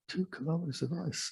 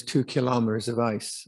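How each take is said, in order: First: Much softer, higher-pitched aside; hushed amazement. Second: Said in the usual way. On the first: Real, not acted. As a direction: repeat it in quiet wonder at the amount. Repeats the figure to marvel at it.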